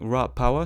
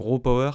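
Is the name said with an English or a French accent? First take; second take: English; French. First: It is said with an English accent. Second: It is said with a French accent. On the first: "si on le prononce en anglais" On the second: "si on le prononce avec l'accent français"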